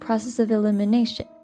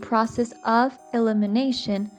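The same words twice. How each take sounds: First: The word 'of' has a reduced schwa vowel. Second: The word 'of' has a full vowel. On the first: "he is saying" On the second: "instead of saying"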